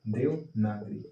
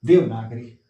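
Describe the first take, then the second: First: Devanagari said low and soft, syllable by syllable; slow, careful Devanagari as a model answer; 1 stressed answer. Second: Devanagari said loud and punched, falling at the end; 1 emphatic repeat. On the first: (Devanagari धीरे और साफ़ बोलकर) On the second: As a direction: hammer Devanagari home for the class. (Devanagari ज़ोर देकर) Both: Shown as a demonstration. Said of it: "ये याद कर लेना".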